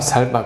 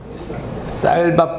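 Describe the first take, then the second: First: The first consonant is a plain s sound. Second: The first consonant is a tense s sound. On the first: The speaker calls it wrong. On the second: The speaker calls it right.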